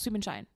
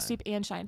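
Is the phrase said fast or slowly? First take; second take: fast; slowly. First: The phrase is said quickly, run together. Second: The phrase is said slowly, word by word. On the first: The speaker calls it right. "you gotta say it fast" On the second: The speaker calls it wrong.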